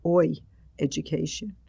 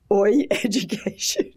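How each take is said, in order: First: Said in the usual way. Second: Louder, higher, slow delivery through laughter; real laugh breaking into the words. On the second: Real, not acted. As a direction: crack up while announcing the title. Laughing at her joke title.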